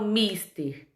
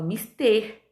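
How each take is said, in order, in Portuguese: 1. A tônica está na primeira sílaba. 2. A tônica está na última sílaba. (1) "Eu não falo mister" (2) "eu falo mister"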